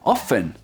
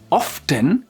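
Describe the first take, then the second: First: The t sound is left out entirely. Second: The t sound is pronounced in the middle.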